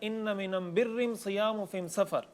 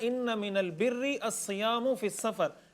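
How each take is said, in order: First: The article is pronounced with an m sound. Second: The article is pronounced with an l sound. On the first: It is spoken in the listeners' own dialect. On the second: It is spoken in the standard form.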